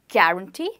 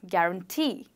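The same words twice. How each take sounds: First: The stress falls before the last syllable. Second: The stress falls on the last syllable. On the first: The speaker calls it wrong. "So I don't pronounce it as guarantee" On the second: The speaker calls it right. "I stress on syllable number three"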